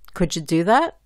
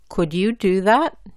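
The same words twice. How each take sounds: First: The words run together and link. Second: Each word is said clearly and separately. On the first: "juntando o enlazando las letras" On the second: "la pronuncio bien y claramente"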